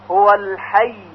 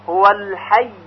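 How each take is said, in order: Both takes have the same delivery.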